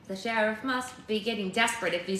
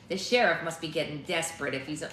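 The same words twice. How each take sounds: First: It is read in a different character voice. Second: It is read in the gruff character voice. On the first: The line sounds like the right character. The speaker calls it right. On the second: The line sounds like the wrong character. The speaker calls it wrong.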